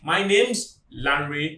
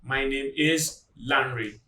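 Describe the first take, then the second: First: The words name and is are contracted. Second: The words name and is are said separately. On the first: The speaker sounds competent in English pronunciation. The speaker calls it right. "You should say" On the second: The speaker seems less competent in pronunciation. The speaker calls it wrong. "do not say"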